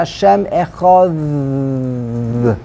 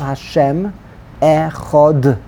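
First: The last word ends with a th sound. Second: The last word ends with a hard d sound. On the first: The speaker calls it right. "The correct pronunciation, ... It's a th" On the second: The speaker calls it wrong. "we don't know how to read"

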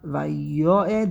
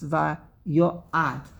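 First: The final vowel is an 'e' sound. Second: The final vowel is an 'a' sound. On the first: The speaker calls it wrong. "it's not vayoed" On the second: The speaker calls it right. "but it's vayoad"

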